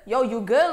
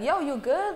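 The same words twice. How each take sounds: First: It sounds threatening, like picking a fight. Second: It sounds caring, like checking on someone.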